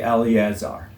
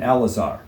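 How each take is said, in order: First: The second E is pronounced. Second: The second E is silent. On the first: The speaker calls it wrong. "don't say Eleazar" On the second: The speaker calls it right. "the second E is silent"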